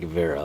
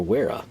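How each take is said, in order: First: The name is pronounced the German way. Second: The name is pronounced the English way.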